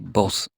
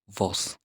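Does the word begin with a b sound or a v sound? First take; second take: b sound; v sound. First: The word begins with a b sound. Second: The word begins with a v sound. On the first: The speaker calls it right. "V is pronounced as B in Spanish, so we say vos" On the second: The speaker calls it wrong. "not vos"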